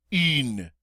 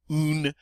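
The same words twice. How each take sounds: First: "in" as "une", lips rounded on "ee"; French U. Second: "Un" with "oo", like "oon"; English-style U. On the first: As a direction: pucker and say "een" for "in". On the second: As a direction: say "Un" without French U. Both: Shown as a demonstration. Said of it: "Do you hear the difference?".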